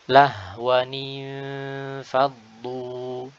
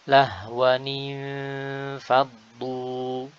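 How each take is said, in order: The two takes are said the same way.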